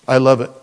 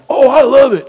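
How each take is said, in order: First: It is said sarcastically, not meant. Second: It is said sincerely, with real delight.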